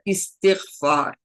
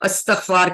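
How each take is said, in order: First: It begins with 'isti', with an 'i' after 't'. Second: It begins with 'asta', with an 'a' first. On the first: The speaker calls it right. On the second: The speaker calls it wrong.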